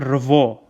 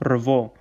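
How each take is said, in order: First: The syllable is said with a v sound. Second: The same.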